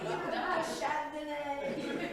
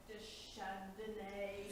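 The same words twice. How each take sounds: First: Deschardonnay slowly said high with a French accent, laughing. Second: Said in the usual way. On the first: Shown as a demonstration. Reading names to the council, a laughing French accent on Deschardonnay. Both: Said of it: "I try to say it with that French accent".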